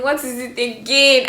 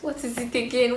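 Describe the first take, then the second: First: "again" pushed louder and higher; louder anxious repeat. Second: Said in the usual way. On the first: Retold or imitated. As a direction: repeat the question louder, anxiety rising. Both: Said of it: "I was having mad anxiety".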